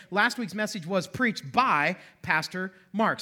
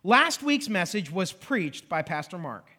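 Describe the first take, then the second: First: Slow read, leaning on "by"; slow example with "by" stressed as the passive marker. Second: Slow, deliberate example reading; read out slowly. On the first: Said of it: "So we say". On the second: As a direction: read the example sentence carefully. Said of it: "So look at this sentence". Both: Shown as a demonstration.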